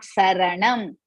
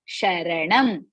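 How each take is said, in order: First: The word begins with an s sound. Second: The word begins with an sh sound. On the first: The speaker calls it wrong. "not Saranam" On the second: The speaker calls it right. "It is Sharanam"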